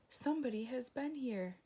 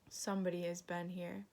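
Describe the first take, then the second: First: It is said in a very squeaky voice. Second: It is growled in a sad, dreary voice.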